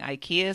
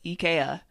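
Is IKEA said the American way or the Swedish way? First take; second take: American; Swedish. First: It is said with the American pronunciation. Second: It is said with the Swedish pronunciation. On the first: "instead of saying IKEA" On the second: "the actual pronunciation in Scandinavia is IKEA"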